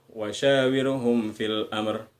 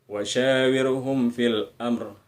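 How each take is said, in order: Both takes have the same delivery.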